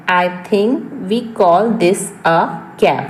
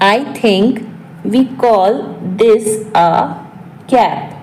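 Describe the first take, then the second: First: Said in the usual way. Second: Short pieces with long pauses; piece-by-piece repeat. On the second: Shown as a demonstration. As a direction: dictate it in small chunks for learners. (टुकड़ों में, रुक-रुक कर)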